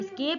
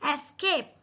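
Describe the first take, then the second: First: The word begins directly with an s sound. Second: The word begins with a vowel before the s. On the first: The speaker calls it wrong. "ये स्केप नहीं है" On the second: The speaker calls it right. "इसका correct pronunciation"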